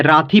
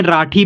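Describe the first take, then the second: First: राठी with dental th, as raa-thee; dental reading option. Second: राठी with retroflex aspirated th; retroflex reading option. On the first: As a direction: say राठी with tongue on the teeth. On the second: Teacher offering learners the other reading, राठी with retroflex th. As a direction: curl the tongue back for राठी. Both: Shown as a demonstration. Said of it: "दोनों पढ़ सकते हैं".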